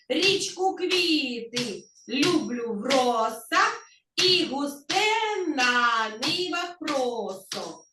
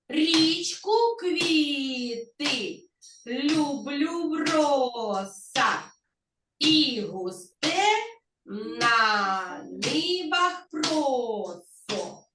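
First: It is said at ordinary speed and volume. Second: It is said at a slower speed.

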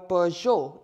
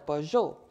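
First: It is said with an English-style pronunciation. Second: It is said with a French pronunciation.

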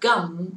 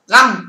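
First: The vowel is a central sound from the throat. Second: The vowel is a short front open sound. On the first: The speaker calls it right. "mà đọc từ này là gum" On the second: The speaker calls it wrong. "không đọc được là gum"

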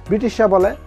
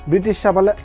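The two takes are said the same way.

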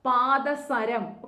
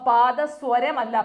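First: The third syllable is a plain 'sa'. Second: The third syllable has a 'w' glide: swa. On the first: The speaker calls it right. "പാദസരമാണ് ശരിയായിട്ടുള്ള പദം" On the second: The speaker calls it wrong. "അപ്പൊ പാദസ്വരമല്ല"

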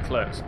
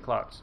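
First: The vowel sounds like the one in 'her'. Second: The vowel sounds like the one in 'car'. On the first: The speaker calls it wrong. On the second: The speaker calls it right.

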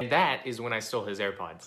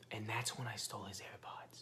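First: The sentence is yelled loudly. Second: The sentence is whispered softly. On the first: "you just yelled it out loud" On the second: "Whispering it"

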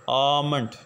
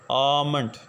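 First: The L sound is left out entirely. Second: The same.

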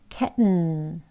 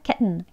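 First: The word is said at a slower pace. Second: The word is said at a quick pace.

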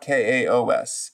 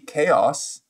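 First: The name is said in separate parts. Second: The name is said as one single word. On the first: "but maybe they just want KaOS" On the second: "If I pronounce it as one word in English, it would be KaOS"

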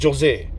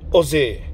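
First: The name starts with a sounded J. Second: The name starts without a J sound. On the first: The speaker calls it wrong. "Some people pronounce it Jose" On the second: The speaker calls it right. "but it's Jose. The J is silent"

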